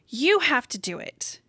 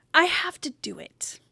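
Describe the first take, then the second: First: "You" punched, said slowly; slow, voiced "You have to do it" with "You" hit; stress on you. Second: "I" stressed, then the rest whispered; hushed "I have to do it" with "I" weighted. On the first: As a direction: point it at the listener: "You" stressed, slower pace. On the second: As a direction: lean on "I" and drop to a whisper. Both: Shown as a demonstration.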